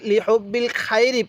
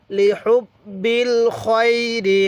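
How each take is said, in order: First: Quick reading with open "ai" in "খায়রি"; mistaken khairi. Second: Slow, drawn-out recitation, "খয়রি" as "khoi-ri"; correct khoiri. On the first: Teacher showing learners a common mistake, "খায়রি" with thin "khai". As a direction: say "খায়রি" with a thin front "kha" vowel, "khai-ri". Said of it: "এখানে একটি ভুল করে থাকি". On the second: Teacher modelling the correction for learners, slow rounded "khoi" in "খয়রি". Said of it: "এরকমভাবে শিখব". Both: Shown as a demonstration.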